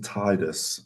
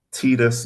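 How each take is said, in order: First: Tidus said TIE-dus, drawn out; slow Tidus with long I; tie-dus variant. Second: Tidus said TEE-dus, drawn out; slow Tidus with long EE; tee-dus variant. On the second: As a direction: start Tidus like "tea". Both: Shown as a demonstration. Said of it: "change the pronunciation".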